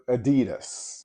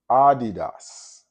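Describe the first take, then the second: First: The vowels are said in an Americanized way. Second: The vowels are said as pure vowel sounds.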